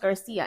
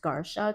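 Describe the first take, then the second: First: The middle consonant is an 's' sound. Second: The middle consonant is a 'sh' sound. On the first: The name is said the family's own way. The speaker calls it right. "this is how we say our last name" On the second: The name is read by Polish spelling rules. The speaker calls it wrong. "C I in Polish is with pronounced like a sh"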